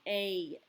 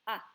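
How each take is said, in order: First: The vowel is drawn out long. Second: The vowel is clipped short. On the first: The speaker calls it wrong. "In English, our vowels are long" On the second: The speaker calls it right. "in Spanish, those sounds are going to be shorter"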